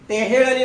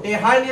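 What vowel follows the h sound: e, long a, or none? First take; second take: e; long a. First: An e vowel follows the h. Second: A long a vowel follows the h. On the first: "टेहेळणी नाही" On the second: "टेहाळणी नाही"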